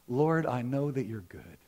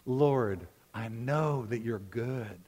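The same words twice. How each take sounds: First: It is said in a calm, plain way. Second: It is said with strong, heartfelt emphasis. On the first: "say that with me" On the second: "say that again like you mean it"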